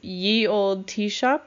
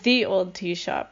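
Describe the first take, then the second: First: The first word begins with a y sound. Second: The first word begins with a th sound. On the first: The speaker calls it wrong. "always pronounced it myself as" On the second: The speaker calls it right. "But it would be"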